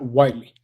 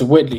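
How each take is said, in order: First: The first syllable is said as 'white'. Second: The first syllable is said as 'whit'. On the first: The speaker calls it wrong. "not Whiteley" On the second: The speaker calls it right. "It's Whitley"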